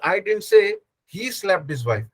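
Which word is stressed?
he. The stress falls on the word he. Some other person did the slapping. "I said she slapped his wife"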